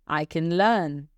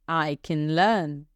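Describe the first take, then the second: Both takes have the same delivery.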